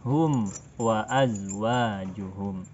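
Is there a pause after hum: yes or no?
yes. There is a break after hum. The speaker calls it wrong.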